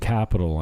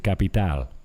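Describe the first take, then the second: First: It is said with an English accent. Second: It is said with a Spanish accent. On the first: "I don't say capital anymore" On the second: "I wonder why I am taking on the Spanish accent"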